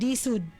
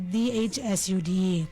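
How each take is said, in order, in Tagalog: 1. Ganap na tinatanggal ang letrang H. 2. Binibigkas ang bawat letra, kasama ang H.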